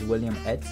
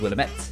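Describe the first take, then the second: First: It sounds like the name William plus 'et'. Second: It is said as one word, Willamette. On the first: This is how the speaker first assumed it was said. The speaker calls it wrong. "I thought it was William Et" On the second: This is how the speaker learned it is really said. The speaker calls it right. "is Willamette"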